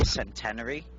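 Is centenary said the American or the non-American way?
American. It is said the American way. "you guys say centenary"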